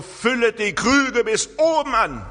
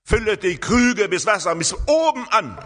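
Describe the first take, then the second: First: High, loud command of Jesus; commanding order. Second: High, loud clear command; commanding order. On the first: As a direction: give it as a clear order. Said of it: "Das ist ein Imperativ. ... Das ist ein Befehl". (hoher, lauter Befehl) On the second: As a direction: call it out as an order. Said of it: "Jesus sagt hier einen klaren Befehl". (klarer, lauter Befehl) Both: Retold or imitated.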